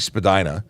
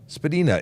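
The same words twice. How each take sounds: First: The name is said the common everyday way. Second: The name is said the original surname way. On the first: This is how most locals refer to the street. The speaker calls it wrong. "I say Spadina... that's the common the common way to refer to it, even though it's not correct" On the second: This is how the family surname is pronounced. The speaker calls it right. "Spadina is the actual name. It's a surname"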